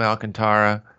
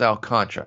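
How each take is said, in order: First: Alcantara said as al-can-TAR-a; former pronunciation of Alcantara. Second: Alcantara said like al-CON-tra; shorter pronunciation of Alcantara. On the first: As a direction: give Alcantara four syllables, stressing TAR. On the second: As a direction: stress CON in a three-syllable Alcantara. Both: Shown as a demonstration. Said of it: "I used to call him Alcantara".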